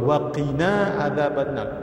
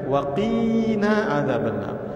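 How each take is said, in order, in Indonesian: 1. Vokal dalam wa qina tetap pendek. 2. Vokal dalam wa qina dipanjangkan. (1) "Jangan dipanjang wa qina" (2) "Jangan baca"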